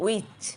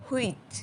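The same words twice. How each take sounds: First: "which" carefully said, starting on a clean w; correct pronunciation. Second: "which" as learners commonly say it, like "huich"; common mispronunciation. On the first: Teacher models the word for learners, careful "which". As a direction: model "which" as "wich", ending in ch. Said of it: "এর সঠিক উচ্চারণ হচ্ছে". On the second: Teacher shows learners their usual slip, mispronounced "which". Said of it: "আমরা বলি". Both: Shown as a demonstration.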